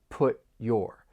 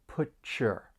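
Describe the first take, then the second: First: A stopped T, then a clear Y. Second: The T and Y blend into ch. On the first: "that stop T and then you're going to hear that y in your" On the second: "the T and Y may blend together and you create this slight ch sound"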